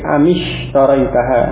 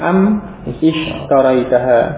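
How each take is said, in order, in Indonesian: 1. Kata-kata itu disambung dengan bunyi i yang menghubungkannya. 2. Kedua kata itu diucapkan terpisah, tanpa sambungan. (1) "hamzahnya wasal, maka tidak diucapkan, sehingga am yang semula sukun di kasrah" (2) "asalnya am ishtaraitaha"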